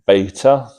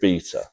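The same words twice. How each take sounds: First: It is said with an American pronunciation. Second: It is said with a British pronunciation. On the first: The speaker calls it wrong. "Americans pronounce the beta as beta" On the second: The speaker calls it right. "we're going to pronounce it beta"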